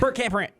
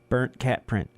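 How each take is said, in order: First: It is said fast. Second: It is said slowly.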